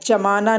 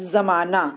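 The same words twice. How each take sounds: First: The first consonant is a j sound. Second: The first consonant is a z sound. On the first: The speaker calls it wrong. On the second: The speaker calls it right.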